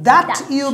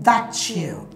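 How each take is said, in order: First: The t and y stay separate sounds. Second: The t and y merge into a ch sound.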